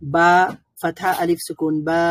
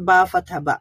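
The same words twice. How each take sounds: First: Final "বা" held long as baa; lengthened vowel. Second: "বা" with a short a sound; short vowel. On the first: Teacher demonstrates madd to learners, lengthened "বা". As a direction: draw out the a in "বা". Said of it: "সাউন্ডটা দীর্ঘায়িত হবে". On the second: Teacher shows learners the short fatha sound, short vowel "বা". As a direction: end on a quick, short "বা". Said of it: "এগুলো খুবই short sound হবে". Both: Shown as a demonstration.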